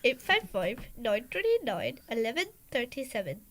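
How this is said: It is said in a put-on accent like Daddy's.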